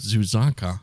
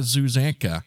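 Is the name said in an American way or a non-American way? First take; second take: non-American; American. First: The name is said with a non-American pronunciation. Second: The name is said with an English-American pronunciation. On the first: The speaker calls it right. "I like that better" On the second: The speaker calls it wrong. "that's kind of an English-American way of saying it"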